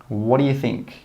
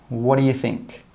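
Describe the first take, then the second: No difference in how they are said.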